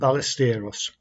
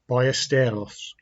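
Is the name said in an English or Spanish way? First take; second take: English; Spanish. First: The name is said in an English way. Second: The name is said in a Spanish way.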